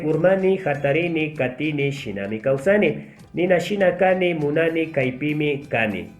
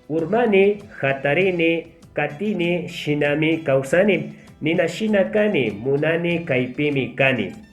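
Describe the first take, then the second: First: It is read at a medium pace. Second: It is read at a slow pace. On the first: "una segunda vez voy a sí, aumentar la velocidad" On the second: "Vamos a empezar leyendo lo más lento"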